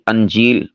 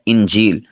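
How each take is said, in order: First: The word begins with an a vowel. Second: The word begins with an i vowel. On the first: The speaker calls it wrong. "बाज़ इसे अंजील बोल देते हैं, ये गलत है" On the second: The speaker calls it right. "हमज़ा के कसरा के साथ"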